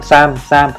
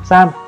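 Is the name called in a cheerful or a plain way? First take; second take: plain; cheerful. First: The name is called in a plain, flat way. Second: The name is called in a cheerful, lively way. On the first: The speaker calls it wrong. "thay vì là gọi Sam" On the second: The speaker calls it right. "gọi cái tên của bé cún vui hơn một chút"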